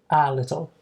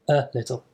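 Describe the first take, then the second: First: The first vowel is a full, strong sound. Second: The first vowel is a relaxed schwa sound. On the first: The speaker calls it wrong. "it's not a" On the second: The speaker calls it right. "that is a schwa sound"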